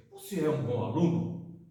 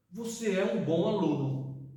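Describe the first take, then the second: First: "Você é um bom aluno?" with the pitch rising on "aluno" like a yes-no question; rising question tune. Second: Said in the usual way. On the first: Shown as a demonstration. Teacher showing students a question by intonation, rising question tune. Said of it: "Eu mudei a entonação e fiz a pergunta". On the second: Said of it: "Eu mudei a entonação".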